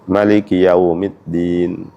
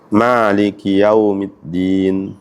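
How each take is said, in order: First: The first vowel of Maliki is kept short. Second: The first vowel of Maliki is drawn out long.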